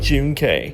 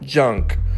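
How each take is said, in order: First: It is said as two parts, 'June' then 'K'. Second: It is said as one syllable, like 'junk'. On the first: The speaker calls it right. "It's [name]" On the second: The speaker calls it wrong. "his new stage name is most definitely not, in fact, junk"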